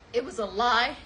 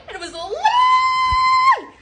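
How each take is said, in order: First: Said in the usual way. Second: Very high, long squealed "lie"; drawn-out shriek. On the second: Real, not acted. Storyteller wailing about being deceived, drawn-out shriek. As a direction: shriek it out, stretching the last word.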